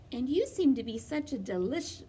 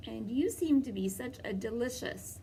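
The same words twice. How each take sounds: First: "delish-" cut off mid-word; wolf nearly says "delish-"; slip of the tongue. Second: "delicious" said fully as a sly near-slip; wolf lets "delicious" slip out; corrected take. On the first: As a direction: start to say "delish-" then catch yourself. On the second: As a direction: land on "delicious" with a knowing lilt. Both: Acted. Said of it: "by which I mean delightful".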